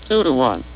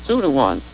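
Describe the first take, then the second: The two takes are said the same way.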